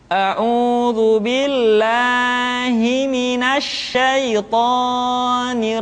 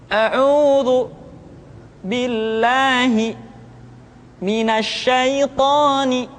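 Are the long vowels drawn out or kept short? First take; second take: drawn out; short. First: The long vowels are stretched well beyond two beats. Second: The long vowels are held for only two beats. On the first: The speaker calls it wrong. "dengan sebuah irama yang seperti ini. ... Ini kesalahan pertama" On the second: The speaker calls it right. "suara kita diayun supaya tidak kepanjangan"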